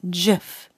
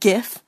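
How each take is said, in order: First: The word starts with a soft G sound. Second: The word starts with a hard G sound. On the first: The speaker calls it right. "It is a soft G" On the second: The speaker calls it wrong. "It's not GIF"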